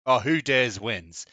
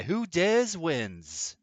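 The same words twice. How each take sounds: First: Said in the usual way. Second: Slow, grand, higher announcer read; dramatic game show announcer. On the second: Shown as a demonstration. Streamer mocking the SAS motto, slow announcer voice. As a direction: savor each word like a show title. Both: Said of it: "It sounds like that".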